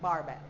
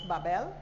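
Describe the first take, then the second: First: The name is said with an R sound. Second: The name is said without an R sound. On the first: This is how the name is said on Saint Thomas. "on Saint Thomas we pronounce it Barbell" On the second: This is how the name is said on Saint Croix. "on Saint Croix we pronounce Babel"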